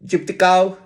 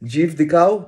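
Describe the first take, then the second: First: It is said with an English accent, like chiptikao. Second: It is said with a native Hindi pronunciation. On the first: "ওর উচ্চারণে সেটা হয়ে দাঁড়াচ্ছে চিপটিকাও" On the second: "Hindi উর্দুতে বলা হতো"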